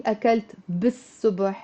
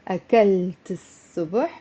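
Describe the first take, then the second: First: أكلت بالصبح said as the mistake, with a B; wrong with B; wrong version. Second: أكلت الصبح with the L swallowed into the S; sun-letter pronunciation; correct version. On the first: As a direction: show the learners' error with بالصبح. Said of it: "That would be wrong". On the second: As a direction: model the right form, الصبح without L. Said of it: "pronounce الصبح". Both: Shown as a demonstration.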